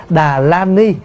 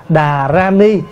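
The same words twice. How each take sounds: First: "đà la ni" with L in "la"; L reading. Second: "đà ra ni" with R in "ra"; R reading. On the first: Monk showing the alternative acceptable reading, "đà la ni" with L. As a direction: sound out "đà la ni" with a clear L. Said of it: "Thay vì mình đọc là đà la ni". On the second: Monk showing the reading closer to Sanskrit, "đà ra ni" with R. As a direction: sound out "đà ra ni" with a clear R. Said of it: "nó gần hơn". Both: Shown as a demonstration.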